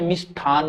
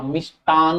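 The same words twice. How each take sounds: First: मिष्ठान said with aspirated ठ, the wrong form; wrong spelling said. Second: मिष्टान said slowly with a plain unaspirated ट; correct form, slow. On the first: Teacher shows students the wrong मिष्ठान, aspirated ठ. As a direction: say मिष्ठान with a breathy aspirated ठ as the error. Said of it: "मिष्ठान नहीं होता". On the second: Teacher shows students the correct मिष्टान, slow and clear. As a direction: draw out मिष्टान carefully, crisp unaspirated ट. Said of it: "मिष्टान होता है". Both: Shown as a demonstration.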